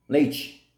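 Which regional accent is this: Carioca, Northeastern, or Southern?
Carioca. It is said in a Carioca coastal accent. "Cariocas e baianos do litoral pronunciam leite"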